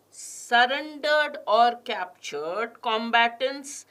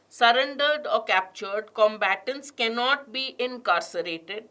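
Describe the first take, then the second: First: Slow, each word set apart; slow deliberate read. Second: "Surrendered" stressed and rising, the rest read on evenly. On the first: Teacher reading the passage aloud, slow and careful. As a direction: read it out slowly for the class. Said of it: "I'm also going to stress on certain words". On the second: Teacher modelling para jumble reading, stressing the linking words. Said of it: "I read it with stresses on the linking words". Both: Shown as a demonstration.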